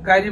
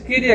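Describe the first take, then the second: First: The first vowel sounds like 'eye'. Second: The first vowel sounds like 'ee'. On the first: This is how people commonly say it. The speaker calls it wrong. "আমরা কাইরি বলি" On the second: This is how it should properly be said. The speaker calls it right. "এটা হচ্ছে কিরি"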